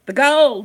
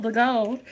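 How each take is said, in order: First: Excited. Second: Said in the usual way. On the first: Real, not acted. Savoring the gold detail.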